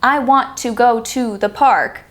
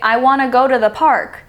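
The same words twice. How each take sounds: First: Each word is said separately and precisely. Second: The words are blended into reduced forms. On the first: "many native speakers do not say, ... that precise" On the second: "want to is made into wanna, and then go to is made into gotta"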